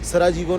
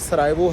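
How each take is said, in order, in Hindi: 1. शब्द स्पष्ट j ध्वनि के साथ बोला जाता है। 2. शब्द में कोई j ध्वनि नहीं बोली जाती। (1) "सराजीवो नहीं होता भाई" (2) "जे साइलेंट है"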